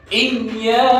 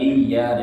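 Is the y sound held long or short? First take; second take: long; short. First: The y sound is pressed and held long. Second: The y sound is light and short. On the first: The speaker calls it right. "huruf bertasdid itu harus ditekan dulu" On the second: The speaker calls it wrong. "jangan iya"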